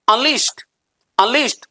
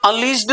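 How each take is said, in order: First: Unleashed ending on a crisp t; right pronunciation. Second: Unleashed with a voiced d ending; wrong pronunciation. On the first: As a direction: say अनलीश्ड as "unleesht". (अनलीश्ड को "अनलीश्ट" जैसा) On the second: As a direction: say अनलीश्ड as "unleesh-duh". (अनलीश्ड के अंत में ड) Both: Shown as a demonstration. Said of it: "अनलीश्ड नहीं".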